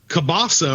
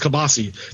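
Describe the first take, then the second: First: The word ends in an 'ah' vowel. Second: The word ends in an 'ee' vowel.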